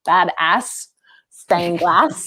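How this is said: It is said with an American accent.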